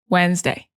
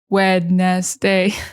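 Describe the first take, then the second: First: The word is shortened, with syllables run together. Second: Every written syllable is pronounced separately. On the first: This is how it is actually spoken. The speaker calls it right. "We say Wednesday" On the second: This is how it is spelled and thought of while writing. The speaker calls it wrong. "we think Wednesday, but we don't say that"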